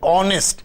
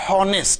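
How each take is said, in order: First: The word begins with a vowel sound. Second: The h at the start is pronounced. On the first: The speaker calls it right. "we say honest" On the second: The speaker calls it wrong. "we do not say honest"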